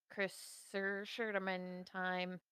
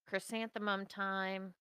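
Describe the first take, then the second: First: "chrysanthemum" drawn out and slurred as "chris-ser-sherdamum"; garbled chrysanthemum. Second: Said in the usual way. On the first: Acted. Garbles the word on purpose.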